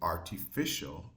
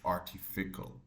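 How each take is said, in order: First: The 'ci' part is said with a 'sh' sound. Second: The 'ci' part is said with a 'k' sound. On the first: The speaker calls it right. "So this will be artificial" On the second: The speaker calls it wrong. "instead of artificial"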